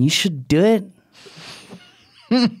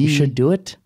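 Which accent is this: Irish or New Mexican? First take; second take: New Mexican; Irish. First: It is said in a New Mexican accent. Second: It is said in an Irish accent. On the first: "And then like New Mexican" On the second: "Like Irish accent"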